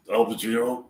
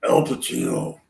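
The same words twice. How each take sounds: First: A light attempt at Pacino's voice, timbre changed; first try at the Pacino voice, not yet settled; Al Pacino impression. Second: A much lower, altered Pacino voice; Al Pacino impression. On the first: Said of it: "try to talk like Al Pacino". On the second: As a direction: drop the voice right down to sound like Pacino. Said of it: "just trying to sound like him". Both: Shown as a demonstration.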